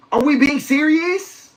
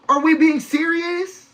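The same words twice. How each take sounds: First: Slow, higher, stress on serious; disbelief. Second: Slow and higher, punch "we"; disbelief, stressing we. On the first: Host to his stream audience, slow stress on serious. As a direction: draw out "serious" in open disbelief. Exasperated rhetorical question to listeners. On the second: Host repeating to his audience, punching we. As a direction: lean hard on "we" as if you can't believe it. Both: Real, not acted.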